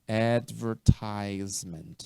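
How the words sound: It is said with an American pronunciation. "pronúncia americana"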